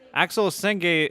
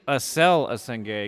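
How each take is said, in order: First: The name is said with an English pronunciation. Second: The name is said with a French pronunciation. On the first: The speaker calls it wrong. "I've been saying it wrong" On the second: The speaker calls it right. "it might be Acel Asenge because he's French"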